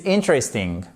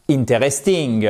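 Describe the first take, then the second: First: "interesting" stressed on IN, the rest reduced; English "interesting" with the accent up front; first-syllable stress. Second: "interesting" in French syllables, in-té-res-TING; mispronounced "interesting" without first-syllable stress; wrong French-style stress. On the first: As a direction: punch the IN of "interesting". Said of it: "l'accent tonique qui se trouve ici sur la première syllabe". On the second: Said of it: "Et pas interesting". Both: Shown as a demonstration.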